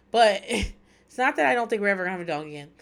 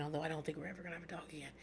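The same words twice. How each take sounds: First: Louder, laughing take-back with a push on "that"; laughing correction. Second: Quick, much softer muttered aside. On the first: Telling listeners about getting a dog, a louder laughing take-back. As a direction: cover the aside with a laugh and lean on "that". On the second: Telling listeners about getting a dog, a quick soft muttered aside. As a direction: slip the truth in under your breath, fast. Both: Real, not acted.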